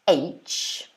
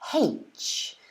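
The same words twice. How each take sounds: First: The letter name starts with a vowel, no h sound. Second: The letter name starts with an added h sound. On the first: "pronounce the first letter of this word as H" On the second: "So they actually add H at the beginning"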